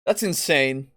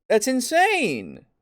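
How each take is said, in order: First: Said in the usual way. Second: That's insane, slower with the pitch up; slow, incredulous That's insane; drawn-out disbelief. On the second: Real, not acted. Repeated exasperation.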